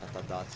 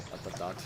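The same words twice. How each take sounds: The two takes are said the same way.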